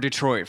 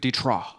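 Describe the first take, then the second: First: It is said with an English pronunciation. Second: It is said with a non-English pronunciation.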